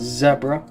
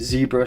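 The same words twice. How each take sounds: First: It is said in a Welsh accent. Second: It is said in a non-Welsh accent.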